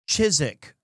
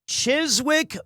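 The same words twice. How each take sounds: First: The w in the middle is silent. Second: The w in the middle is pronounced.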